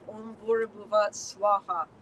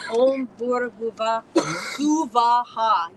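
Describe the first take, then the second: First: The last word has two syllables, swa-ha. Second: The last word has three syllables, su-va-ha. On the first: The speaker calls it wrong. "that is an insult to the energy of Gayatri. It's not right" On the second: The speaker calls it right. "it was the pronunciation"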